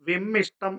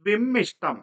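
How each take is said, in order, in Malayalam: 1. നടുവിലെ സംയുക്തം 'sht' ആയിട്ടാണ് ഉച്ചരിക്കുന്നത്. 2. നടുവിലെ സംയുക്തം 'sht' ആയിട്ടാണ് ഉച്ചരിക്കുന്നത്.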